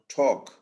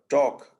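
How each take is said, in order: First: The t has a puff of breath. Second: The t has no puff of breath. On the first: "and not" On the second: "they are going to say"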